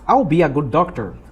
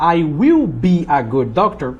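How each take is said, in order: First: 'I will' is contracted into one syllable. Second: 'I will' is said as two full words. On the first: "Você pode tanto contrair ou não" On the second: "Você pode optar I will be ou I'll be"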